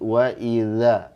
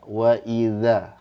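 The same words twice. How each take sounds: No difference in how they are said.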